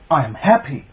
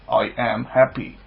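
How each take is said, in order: First: It is said with warm, excited feeling. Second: It is said flatly, like a robot. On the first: The speaker calls it right. "with some love and some excitement to it" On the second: The speaker calls it wrong. "that's a robot, lame affirmation, robotic"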